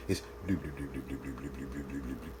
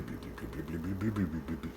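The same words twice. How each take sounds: First: Soft, low bubbling bloop sounds; quiet, low-pitched imitation of a pot simmering softly; gentle simmer bloops. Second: Very low, soft bubbling bloops; hushed, deep imitation of a gentle simmer. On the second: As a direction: make the pot sound barely simmering. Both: Shown as a demonstration. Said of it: "That's the simmer sound".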